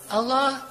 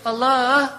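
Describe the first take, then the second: First: It is said plainly, without melody. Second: It is said coaxingly, with a little melody.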